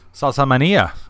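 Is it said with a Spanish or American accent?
Spanish. It is said with a Spanish pronunciation.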